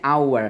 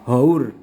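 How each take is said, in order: First: The word begins with no h sound. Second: The word begins with an audible h sound.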